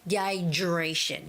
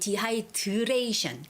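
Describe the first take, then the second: First: The d and r blend into a j sound. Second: The d and r are said as separate sounds. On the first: The speaker calls it right. "when the D and the R sound are put together, it sort of sounds like the J sound" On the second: The speaker calls it wrong. "Like most Koreans would say dehydration"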